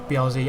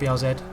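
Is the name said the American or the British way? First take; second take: American; British. First: It is said the American way. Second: It is said the British way. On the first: "to cater to my American audience" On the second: "and my English audience"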